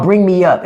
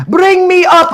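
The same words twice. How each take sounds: First: Said in the usual way. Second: Mock foreign viewer. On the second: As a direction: squeal "Bring me up" high like the troll. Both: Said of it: "It was another Indian".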